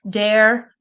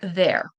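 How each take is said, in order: First: The word begins with a D sound. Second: The word begins with a TH sound. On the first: The speaker calls it wrong. "they'll say like a D" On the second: The speaker calls it right. "instead of there"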